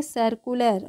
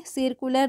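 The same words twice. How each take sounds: First: सर्कुलर with a schwa, 'sur-ku-ler'; correct pronunciation demo. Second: सर्कुलर said wrongly with 'sir' as in 'seer'; mispronunciation demo. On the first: Teacher giving learners the right form, सर्कुलर starting 'sur'. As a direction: start सर्कुलर with 'suh', no i sound. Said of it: "इसका उच्चारण क्या करेंगे". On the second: Teacher showing what to avoid, सर्कुलर with an i in the first syllable. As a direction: give सर्कुलर a short i, 'sir-ku-lar'. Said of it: "आई है तो ई की sound में नहीं". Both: Shown as a demonstration.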